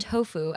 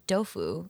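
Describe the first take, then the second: First: The word begins with a T sound. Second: The word begins with a D sound.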